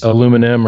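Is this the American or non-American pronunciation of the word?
American. It is said the American way, aluminum. The speaker calls it wrong. "us Americans, you know, we screw everything up"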